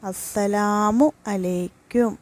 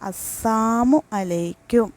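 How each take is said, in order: First: Every syllable of the full greeting is pronounced. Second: The syllable la is dropped from salamu. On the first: May God's protection and peace be upon you. The speaker calls it right. "സലാം പറയേണ്ട ശരിയായ രീതി" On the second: May death come upon you. The speaker calls it wrong. "രണ്ടാമത്തത് അസ്സാമു അലൈക്കും"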